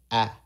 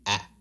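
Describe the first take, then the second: First: Said in the usual way. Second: "ah" cut short and dropped heavy; a clipped, dropped "ah". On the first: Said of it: "So instead of ah". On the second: Shown as a demonstration. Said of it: "Ah, drop".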